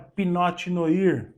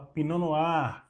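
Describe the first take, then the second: First: It is pronounced following the written letters. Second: It is pronounced the way it is really spoken. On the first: The speaker calls it wrong. "não é Pinot Noir" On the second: The speaker calls it right. "mas se fala Pinot Noir"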